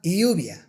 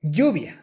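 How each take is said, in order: First: Lluvia with a soft English y, like iubia, whispered and slow. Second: Lluvia with a firm Spanish Y, like jubia; the strong Spanish Y in lluvia; correct Spanish Y. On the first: Teacher showing the wrong English Y in lluvia. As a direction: glide the y softly in lluvia. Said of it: "not lluvia". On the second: Teacher modelling correct Spanish lluvia. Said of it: "the correct way to pronounce these words is". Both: Shown as a demonstration.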